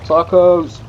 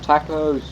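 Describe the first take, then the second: First: The word has a non-British pronunciation. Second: The word has a British pronunciation.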